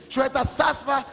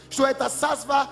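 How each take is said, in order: Both takes have the same delivery.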